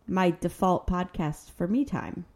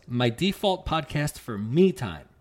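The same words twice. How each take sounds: First: "default" stressed on the second syllable, de-FAULT, said slowly. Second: "default" with the stress on the first syllable, DE-fault. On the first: Correcting her cohost, de-FAULT stressed. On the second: Reading a review title, DE-fault stressed. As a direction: read "default" as DEE-fault. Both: Shown as a demonstration. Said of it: "the emphasis on the wrong syllable".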